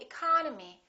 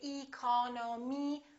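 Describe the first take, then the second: First: The first vowel is reduced to a weak uh. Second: The first vowel is said fully, not reduced. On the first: The speaker calls it right. "we say economy" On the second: The speaker calls it wrong. "We don't say"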